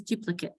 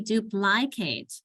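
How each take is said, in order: First: Said in the usual way. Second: "duplicate" over-pronounced as "doop-lie-kate"; full-vowel DUPLICATE. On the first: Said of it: "It becomes an uh sound". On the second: Shown as a demonstration. Teacher showing the unreduced word, "duplicate" as "doop-lie-kate". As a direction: give every vowel in "duplicate" its long sound. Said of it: "comes an I and not an".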